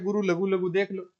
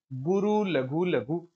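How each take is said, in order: First: Said in the usual way. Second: "गुरु लघु लघु" said very slowly, each word separated; slow spelled-out pattern. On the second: Shown as a demonstration. Teacher showing students the pattern, slow and deliberate. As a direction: draw out "गुरु लघु लघु" one word at a time.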